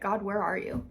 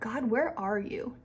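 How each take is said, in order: First: It sounds accusing and abandoned. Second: It sounds hopeful and expectant. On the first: God is absent and has left me alone. The speaker calls it wrong. "our undertone or that subtitle is, is you're not here" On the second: I trust God is here and am looking for His work. The speaker calls it right. "change our heart and our expectation"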